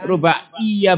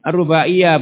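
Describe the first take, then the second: First: The y sound is doubled and held longer. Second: The y sound is short and single. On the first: The speaker calls it wrong. "bukan tasdid" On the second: The speaker calls it right. "Ya-nya di baca ringan"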